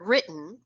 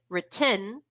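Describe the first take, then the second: First: The stress falls on the usual syllable. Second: The stress falls on an unexpected syllable. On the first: This is the intended word. The speaker calls it right. "meant to say the word written" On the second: Listeners heard a different word. The speaker calls it wrong. "and they pronounced it written"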